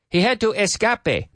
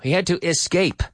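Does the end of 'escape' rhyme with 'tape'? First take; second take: no; yes. First: The end of the word does not rhyme with 'tape'. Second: The end of the word rhymes with 'tape'. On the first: The speaker calls it wrong. "We don't say escape" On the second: The speaker calls it right.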